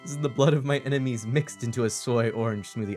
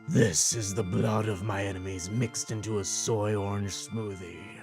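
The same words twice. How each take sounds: First: It is read in a normal speaking voice. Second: It is said in a put-on character voice.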